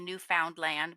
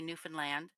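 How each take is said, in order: First: The word is said fully, every syllable clear. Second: The word is said clipped, with syllables squeezed. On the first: This is how outsiders say it. The speaker calls it wrong. "we don't say Newfoundland" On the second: This is how Canadians say it. The speaker calls it right. "we say Newfoundland. It's very truncated"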